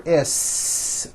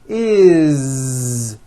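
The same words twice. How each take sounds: First: It ends with an unvoiced s sound. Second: It ends with a voiced z sound. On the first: The speaker calls it wrong. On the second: The speaker calls it right. "with a voiced Z"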